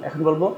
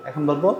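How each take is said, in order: No difference in how they are said.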